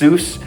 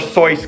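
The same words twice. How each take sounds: First: The name is pronounced the American way. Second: The name is pronounced the German way. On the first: "in American it's it's pronounced Seuss" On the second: "I was trying to pronounce his middle name correctly in, in the German way"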